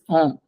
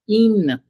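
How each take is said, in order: First: The prefix is a nasal vowel without n. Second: The prefix ends in a clear n sound.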